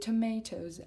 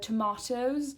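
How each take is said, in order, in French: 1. Elle se prononce à l'américaine. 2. Elle se prononce à la britannique. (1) "à l'américaine" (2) "à l'anglaise"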